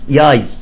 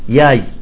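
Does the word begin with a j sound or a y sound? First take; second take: y sound; y sound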